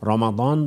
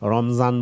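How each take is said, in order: First: The middle consonant is a d sound. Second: The middle consonant is a z sound. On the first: It follows the Arabic pronunciation. "রমাদান বললে আরবি প্রনাউন্সিয়েশনে বললাম" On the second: It follows the Persian pronunciation. "রমজান বললে ফার্সি প্রনাউন্সিয়েশনে বললাম"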